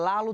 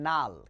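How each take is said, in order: First: The word begins with an 'l' sound. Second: The word begins with an 'n' sound. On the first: This is the correct word. The speaker calls it right. "ওরা লাল উচ্চারণ করতে পারে না" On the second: This is how small children say it. The speaker calls it wrong. "ওরা বলে নাল"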